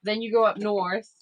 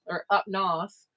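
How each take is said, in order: First: Said in the usual way. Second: "up north" drawn out in Maine style, "north" as "nahth" with no r; slow, local Maine "up nahth"; Maine accent. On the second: Shown as a demonstration. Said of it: "as we all call it here".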